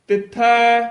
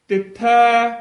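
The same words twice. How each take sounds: The two takes are said the same way.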